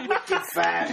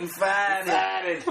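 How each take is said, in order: First: Put-on Wicked farted in a light Boston accent, r dropped; Boston accent, Wicked fahdid. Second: Farted with a Boston drop of the r, fahdid; light South Boston accent on farted; brother's Boston way of saying farted. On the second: Retold or imitated. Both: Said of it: "That's how he says it".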